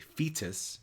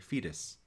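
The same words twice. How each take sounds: First: The T is pronounced crisply and with effort. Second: The T is pronounced softly, almost like a D. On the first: The speaker calls it wrong. "Put an extra effort to pronounce the T. You don't say fetus" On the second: The speaker calls it right. "You say fetus. And people know what you mean"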